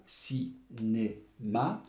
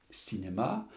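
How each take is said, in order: First: "cinéma" very slowly, a pause between each syllable; split into syllables. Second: Said in the usual way. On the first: Shown as a demonstration. Teacher segmenting a word as with pupils, "cinéma" syllable by syllable. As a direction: break "cinéma" into ci, né, ma. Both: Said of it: "le segmenter en syllabes".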